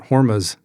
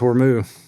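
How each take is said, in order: First: The word ends with a z sound. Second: The word ends without any z sound. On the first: "who's to say it's not Hormuz" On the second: "or the Z silence"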